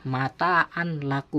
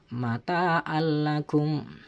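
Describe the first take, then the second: First: The n is pronounced before the l. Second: The n merges into a doubled l. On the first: The speaker calls it wrong. "tidak boleh dibaca mataan lakum" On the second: The speaker calls it right. "seakan-akan ada tasdidnya"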